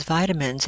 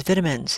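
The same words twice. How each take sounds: First: Said in the usual way. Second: British "vitamins" with a short i, as in "vit"; British pronunciation. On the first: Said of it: "my sister-in-law is from England". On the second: Retold or imitated. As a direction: say "vitamins" the English way, first syllable rhyming with "bit". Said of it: "she pronounces vitamins as vitamins".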